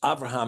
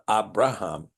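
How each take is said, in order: First: The second consonant is a V sound. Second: The second consonant is a B sound.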